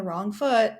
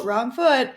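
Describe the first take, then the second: First: Said in the usual way. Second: "wrong foot" said louder, set off as a quoted phrase; quoted emphasis. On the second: Shown as a demonstration. Flagging the idiom for listeners with a louder quoted stress. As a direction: mark "wrong foot" as a quoted expression, punched out. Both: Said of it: "quote unquote".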